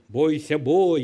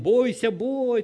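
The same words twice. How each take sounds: First: The voice is big and roaring. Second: The voice is small and thin. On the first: The dragon is large and frightening. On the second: The dragon has shrunk and lost its power.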